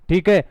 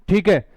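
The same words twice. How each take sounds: The two takes are said the same way.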